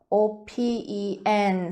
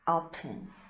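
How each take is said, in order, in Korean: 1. 두 번째 모음은 또렷한 'e' 소리예요. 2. 두 번째 모음은 짧고 약하게 줄어든 소리예요. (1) "오펜 쓰고" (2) "발음은 open이라고 합니다"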